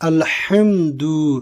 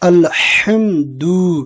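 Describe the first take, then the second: First: The h is a strong, throaty h. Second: The same.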